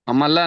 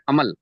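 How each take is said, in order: First: The word ends with an added final a vowel. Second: The word ends on the l consonant. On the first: The speaker calls it wrong. "अमला नहीं बोलेंगे" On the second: The speaker calls it right.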